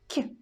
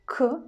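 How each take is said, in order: First: The consonant is soft, palatalized. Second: The consonant is hard, not palatalized. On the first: "soft K" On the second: "hard K"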